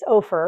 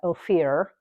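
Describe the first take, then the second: First: The name is pronounced the local way. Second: The name is pronounced the out-of-town way. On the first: The speaker is from the area. The speaker calls it right. "But it's Ophir" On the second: The speaker is not from the area. The speaker calls it wrong. "a lot of people from out of town pronounce that Ophir"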